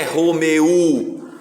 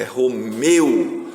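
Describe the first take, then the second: First: ROMEU drawn out as three beats, "ro-me-u"; wrongly split syllables. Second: ROMEU in two slow beats, "ro-meu"; two syllables. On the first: Teacher rejecting a division for pupils, drawn-out ro-me-u. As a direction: pull "eu" apart into "e-u" in ROMEU. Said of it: "Então não é Romeu". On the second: Teacher giving pupils the correct division, slow ro-meu. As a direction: keep "meu" as one gliding syllable in ROMEU. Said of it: "é Romeu". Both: Shown as a demonstration.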